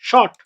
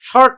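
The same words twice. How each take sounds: First: The r sound is silent after the vowel. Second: The r sound is pronounced after the vowel. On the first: The speaker calls it right. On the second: The speaker calls it wrong.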